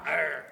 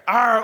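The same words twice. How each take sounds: First: Low, soft pirate arr; quiet, low pirate grumble; pirate growl. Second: Loud pirate arr; full, loud pirate roar; pirate growl. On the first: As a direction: growl it low under your breath. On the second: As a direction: bark it out like a pirate captain. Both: Shown as a demonstration. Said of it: "you are a pirate".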